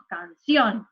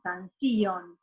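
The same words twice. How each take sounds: First: Canción drawn out, stressed on the final O; "canción" with the O as the strong vowel. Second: Canción misstressed on the I, can-SÍ-on; "canción" with a strong I and weak O; wrong stress on I. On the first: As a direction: say "canción" slowly, leaning on -ción's O. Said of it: "la I o la O". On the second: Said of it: "no decimos canción". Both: Shown as a demonstration.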